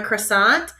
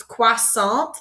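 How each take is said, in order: First: Croissant in plain English, "cruh-SAHNT". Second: Croissant as "kwah-SAHN" in French, slower. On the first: Teacher contrasting English and French, English version. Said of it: "In English, we call them". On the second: Teacher contrasting English and French, French version. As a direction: say croissant the French way, kwa-san. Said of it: "but in French". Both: Shown as a demonstration.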